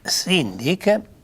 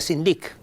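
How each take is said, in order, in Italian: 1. L'accento cade sulla prima sillaba. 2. L'accento cade sull'ultima sillaba. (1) "l'accent casca insieme alla prima sillaba" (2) "se no mi deseria sindic"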